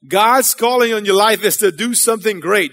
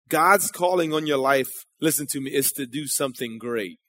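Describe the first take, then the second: First: Firmer and louder, driving it home; louder restatement. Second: Soft, low aside to the crowd; quiet. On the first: Preacher repeating the point to the congregation, louder. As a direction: repeat it so everyone hears. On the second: Preacher to his congregation, soft and low. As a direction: say it low, almost to yourself. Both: Real, not acted. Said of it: "a few people got that".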